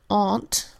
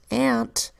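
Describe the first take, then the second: First: The vowel is a long, broad open sound. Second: The vowel is a short sound as in cat. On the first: "In British English they say aunt, where A U makes its broad A sound" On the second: "in American English the A U in this word makes the short A sound"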